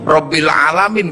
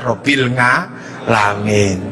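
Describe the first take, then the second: First: The second word starts with a plain vowel. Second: The second word starts with an ng sound.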